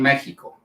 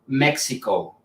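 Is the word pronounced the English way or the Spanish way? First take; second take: Spanish; English. First: The word is pronounced the Spanish way. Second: The word is pronounced the English way. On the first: "but I'm from Mexico" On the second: "I know in English it said uh"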